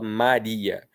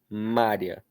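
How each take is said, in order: First: The i and a are in separate syllables. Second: The i and a merge into one syllable. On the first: The speaker calls it right. "Aqui nós também temos um hiato do I com o A" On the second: The speaker calls it wrong. "a gente não fala Mária"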